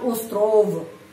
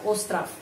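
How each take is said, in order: First: The final consonant sounds like a voiced v. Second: The final consonant sounds like a voiceless f. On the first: The speaker calls it wrong. "bukan остров" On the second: The speaker calls it right. "F ya"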